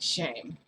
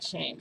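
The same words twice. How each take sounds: First: It is said angrily, like Toshinori. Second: It is said mildly, without anger.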